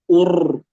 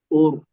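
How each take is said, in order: First: The r has a long, exaggerated trill. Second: The r has only a short, light trill.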